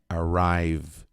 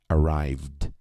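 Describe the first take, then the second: No difference in how they are said.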